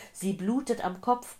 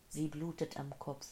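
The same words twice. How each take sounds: First: Loud, high-pitched alarm; urgent, agitated cry. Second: Soft, detached repetition; muted echo. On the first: A narrator's reading. Old man reporting an injured woman, loud and urgent. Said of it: "keuchte der Mann". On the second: Acted. Dazed woman hearing the old man's words, soft and muted. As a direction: let it echo quietly in the mind.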